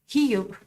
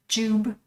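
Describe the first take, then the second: First: The name is pronounced the Spanish way. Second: The name is pronounced the English way. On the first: "you can pronounce it in Spanish like her, like Hiyub" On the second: "the book of Jube"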